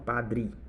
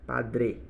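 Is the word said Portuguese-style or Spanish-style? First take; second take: Portuguese-style; Spanish-style. First: The vowels sound Portuguese, open or reduced. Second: The vowels are closed, Spanish style. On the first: The speaker calls it wrong. "não padre" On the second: The speaker calls it right.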